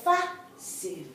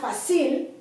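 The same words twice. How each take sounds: First: The stress is on the first syllable. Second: The stress is on the last syllable. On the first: The speaker calls it right. "here the accent is on the first syllable" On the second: The speaker calls it wrong. "Not fácil"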